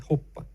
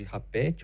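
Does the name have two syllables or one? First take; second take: one; two. First: The name is said as one syllable. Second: The name is said with two syllables. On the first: The speaker calls it right. "a pronúncia correta é" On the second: The speaker calls it wrong. "alguns chamam o projeto de"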